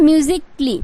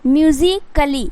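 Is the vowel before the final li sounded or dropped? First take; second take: dropped; sounded. First: The k runs straight into li, vowel dropped. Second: A full vowel is sounded before the final li. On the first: The speaker calls it right. "मतलब आधा क होगा और लहर का ली" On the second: The speaker calls it wrong. "But यहाँ पे म्यूजिकली नहीं होगा"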